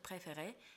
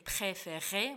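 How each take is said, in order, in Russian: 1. Звуки р мягкие и лёгкие. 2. Звуки р сильные и жёсткие. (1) "просто «préféré», мягкий, легкий" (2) "с неправильным произношением"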